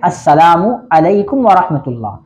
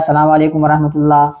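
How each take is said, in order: First: It is said as 'assalamu alaikum', with full vowels. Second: It is said as 'assalam walekum', with clipped vowels. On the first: The speaker calls it right. "असल जो लफ्ज़ है, तलफ़्फ़ुज़ है" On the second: The speaker calls it wrong. "इसमें भी लोग गलती करते हैं"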